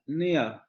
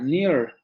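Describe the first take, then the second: First: The word ends without an r sound. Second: The word ends with an r sound. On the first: "en inglés británico esta palabra se pronuncia near" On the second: "en inglés americano esta palabra se pronuncia near"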